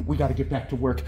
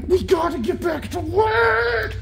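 First: Said in the usual way. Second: Way up high and slow, playful; high sing-song repeat. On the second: Real, not acted. Owner telling her puppy playtime is over, high sing-song. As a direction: sing it to the puppy as a cheery call.

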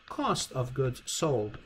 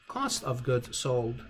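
No difference in how they are said.

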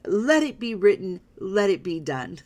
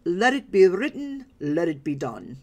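First: A lighter second attempt at the royal decree voice, a little louder; half-hearted pharaoh pronouncement; weaker Yul Brynner retry. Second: Commanding royal pronouncement, voiced big and louder; Yul Brynner impression. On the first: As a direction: try the movie-king line again, less fully. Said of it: "I can't do the accent quite as well". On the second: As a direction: proclaim it like a movie pharaoh. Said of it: "As Yul Brynner would say".

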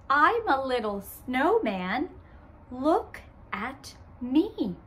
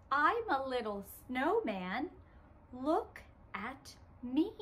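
First: Said in the usual way. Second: Put-on softer, leaving room for the kids; quieter. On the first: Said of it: "I say". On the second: Shown as a demonstration. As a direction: speak softly so children join in. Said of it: "let's say it together".

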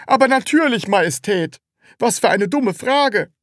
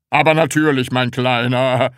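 First: High, loud, impatient answer; exasperated seller. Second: Loud, hearty boss voice; jovial, laughing. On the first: Seller answers the Sams's silly question, exasperated. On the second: Department head reassures the little Sams, jovial laughing. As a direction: say it with a patronising chuckle. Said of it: "sagte der Abteilungsleiter lachend". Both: A narrator's reading.

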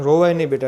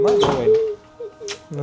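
First: Said in the usual way. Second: Mock crying whine. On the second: Mocking the crying voice back.

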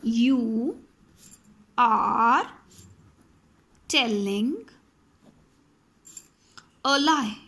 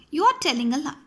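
First: Each word spaced out slowly. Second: Said in the usual way. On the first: Shown as a demonstration. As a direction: dictate the sentence slowly to students. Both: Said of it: "If I say".

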